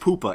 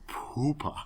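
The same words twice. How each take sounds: First: The word is said plainly without an exhalation. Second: A breathy exhalation breaks the middle of the word. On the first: "It's not just poopa" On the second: "With the weird exhalation in the middle"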